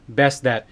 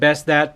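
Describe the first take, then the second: First: Both t sounds are said with a tiny pause. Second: The first t is dropped and runs together. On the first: "two hard T's in a row ... a slight little pause between best that" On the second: "somebody could have been mistaken that I was talking about Porgy and Bess"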